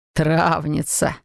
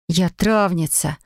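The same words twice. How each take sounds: First: Slow, self-satisfied echo; smug. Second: Slow, mildly indignant assertion. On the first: Mage echoing the wife's admission, smugly drawn out. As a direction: savour the word smugly, stretching it. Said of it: "довольно хмыкнул он". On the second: Wife defending her trade to the mage, mildly indignant. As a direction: protest with restrained offence, drawing it out. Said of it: "возмущённо воскликнул я". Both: A narrator's reading.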